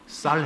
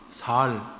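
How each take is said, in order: First: The first consonant is a tense s. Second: The first consonant is a plain s. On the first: The speaker calls it right. "너 쌀 해봐" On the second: The speaker calls it wrong. "그러니까 살 그랬다는 거예요"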